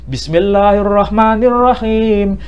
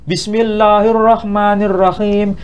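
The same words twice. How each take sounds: No difference in how they are said.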